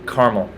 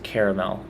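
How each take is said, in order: First: The word is said with two syllables. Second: The word is said with three syllables. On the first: It is the everyday way to say it. The speaker calls it right. "It's always just caramel, like the mountain in Israel" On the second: It sounds fancy and official. The speaker calls it wrong. "never to be pronounced caramel unless you're a fancy restaurant"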